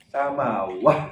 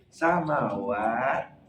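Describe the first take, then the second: First: The word ends with a soft h sound. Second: The word ends with a stopped t sound. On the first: The speaker calls it wrong. "Ada yang jawab sama wah. Sangkanya H itu" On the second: The speaker calls it right. "Yang betul yang mana? B"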